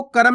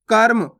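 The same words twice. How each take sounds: First: कर्म split as "ka-ram"; wrong full "ra". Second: कर्म as one syllable, "karm"; no vowel between r and m in कर्म; half "r" in कर्म. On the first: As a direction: put a full vowel after the r in कर्म, "karam". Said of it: "आपको कर्म नहीं पढ़ना". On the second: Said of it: "आधा उच्चारण करेंगे". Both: Shown as a demonstration.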